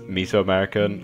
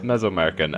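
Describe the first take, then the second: First: The first part sounds like 'miso'. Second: The first part does not sound like 'miso'. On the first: The speaker calls it wrong. "I keep calling this place Mesoamerican" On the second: The speaker calls it right. "It's Mesoamerican"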